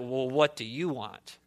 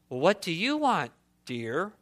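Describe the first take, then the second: First: It sounds cold and annoyed. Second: It sounds warm and affectionate.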